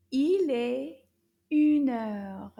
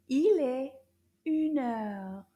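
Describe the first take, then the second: First: Il est une heure loud in a puppet's voice; the puppet repeats loudly. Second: Il est loud, une heure clear; French model. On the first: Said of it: "Can you repeat that?". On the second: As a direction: model the phrase firmly. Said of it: "we say". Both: Shown as a demonstration.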